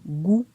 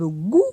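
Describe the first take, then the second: First: The syllable has a low tone. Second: The syllable has a high tone. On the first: "pointon bas" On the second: "Pointon haut"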